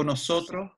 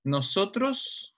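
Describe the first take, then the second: First: "nosotros" with its last S weakened to a breath; aspirated final S. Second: Said in the usual way. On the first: Shown as a demonstration. ("nosotros" con la S final aspirada) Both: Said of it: "Si se la S final la aspira".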